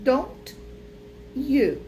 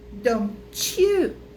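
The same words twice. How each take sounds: First: The words are separate with a clear t. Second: The t and y merge into a ch sound. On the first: "a gente tem o don't, you" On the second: "quando tá junto, vira don't you"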